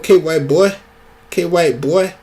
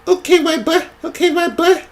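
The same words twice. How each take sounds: First: It is said in a Black American accent. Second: It is said in a white-sounding accent.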